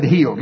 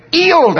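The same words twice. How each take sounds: First: Said in the usual way. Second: "healed" high, H dropped, English-style; mock English accent. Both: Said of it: "That's how he said healed".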